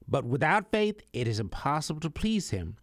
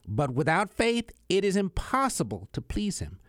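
First: It is read at a normal pace. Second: It is read more slowly.

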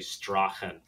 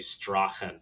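First: The name is said the manly, Gaelic way. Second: The same.

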